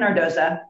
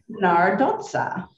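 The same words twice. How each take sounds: First: The surname has an Americanized pronunciation. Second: The surname has an Italian pronunciation. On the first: The family name was adapted to English. "our last name became Americanized" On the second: The name honors the family's Italian roots. "I changed the pronunciation to its correct Italian pronunciation"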